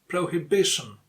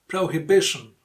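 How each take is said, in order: Both takes have the same delivery.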